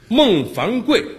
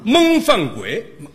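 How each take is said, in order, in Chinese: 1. 声调和普通名字一样。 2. 声调变了，变成了吃的谐音。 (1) "这个名字叫的不是很发音不是很准" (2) "因为他净做那吃的那节目"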